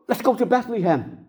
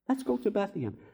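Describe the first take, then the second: First: It is said excitedly, with energy. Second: It is said calmly, without excitement.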